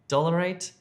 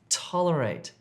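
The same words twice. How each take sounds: First: The word begins with a d sound. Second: The word begins with a t sound. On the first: The speaker calls it wrong. "you need to change that d sound to a t" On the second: The speaker calls it right. "to a t"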